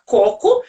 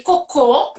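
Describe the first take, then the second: First: "Coco" with CO punched, last syllable weak; stress on first syllable. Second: "cocô" with final CÔ punched and held; stress on last syllable. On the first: Mother showing daughter the fruit word, first-syllable stress. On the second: Mother showing daughter the other word, last-syllable stress. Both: Shown as a demonstration. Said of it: "como é diferente a sílaba tônica".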